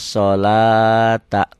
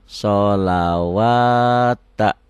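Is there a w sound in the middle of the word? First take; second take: no; yes. First: The la is long with no w sound. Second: A w sound is pronounced after the la. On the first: The waw letter only lengthens the la. The speaker calls it right. "Lamnya panjang karena ada alifnya. Jadi waw ini kosong" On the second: The printed waw letter is read aloud. The speaker calls it wrong. "Ini kan bicaranya bicara pemula ya"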